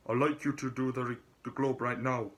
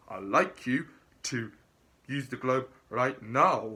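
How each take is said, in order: First: Put-on quicker second try at a Scottish accent; half-hearted Scottish accent retry. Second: Put-on a rough stab at a Scottish accent, louder and firm; imitating a Scottish interviewer giving an order; mock Scottish boss, pressed out loud. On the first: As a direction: redo the Scottish impression, faster and lighter. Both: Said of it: "what Scottish accent".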